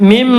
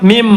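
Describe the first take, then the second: Both takes have the same delivery.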